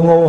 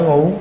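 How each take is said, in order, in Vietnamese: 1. Từ này được nói với thanh ngang. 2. Từ này được nói với thanh hỏi.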